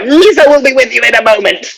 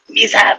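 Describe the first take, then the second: First: It is said at normal volume. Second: It is said quietly, almost hushed.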